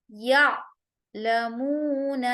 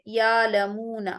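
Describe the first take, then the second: First: یا لمون with a hard glottal catch on the alif; hard cut hamza; hamza with a jolt. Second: یا لمون with the alif drawn out long, no catch; without the jolt. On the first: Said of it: "الف پر ہم سختی کریں گے اور جھٹکا دیں گے". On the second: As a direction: stretch یا لمون smoothly like alif madda. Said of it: "الف مدہ کی طرح آواز کو لمبا کرتے ہوئے بنا جھٹکے". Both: Shown as a demonstration.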